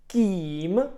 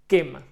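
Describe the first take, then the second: First: The vowel is long and drawn out. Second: The vowel is short and quick. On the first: The speaker calls it wrong. "I wouldn't say it like this, prolonged version" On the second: The speaker calls it right. "I would shorten it"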